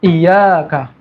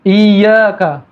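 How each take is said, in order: First: Iyyaka with a single light y; Iyyaka, the doubling dropped; without tasydid. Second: Iyyaka with a doubled yy; iyyaka, yy held; with tasydid. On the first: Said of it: "hilang tasdidnya". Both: Shown as a demonstration.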